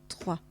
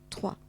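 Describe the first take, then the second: Both takes have the same delivery.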